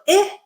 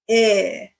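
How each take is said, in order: First: The vowel is short with flat pitch. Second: The vowel is longer, rising then falling.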